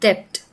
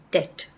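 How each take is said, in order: First: A B sound is pronounced before the T. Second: No B sound is heard before the T. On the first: The speaker calls it wrong. "We cannot say depth because the B is supposed to be silent" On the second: The speaker calls it right. "So we can pronounce the word such as debt"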